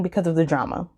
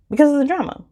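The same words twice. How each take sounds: First: Said in the usual way. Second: "Because" thrown up much higher, then falling; playful emphasis. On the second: Shown as a demonstration. Reviewer repeating her reason for listeners, playfully emphatic. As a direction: relish the drama in it.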